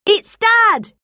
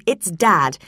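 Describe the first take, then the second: First: High, loud, delighted Dad; boy shouting that Dad is calling; excited boy. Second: Said in the usual way. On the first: A narrator's reading. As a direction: burst out with the news. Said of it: "Tim exclaimed". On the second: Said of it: "Hi, Tim".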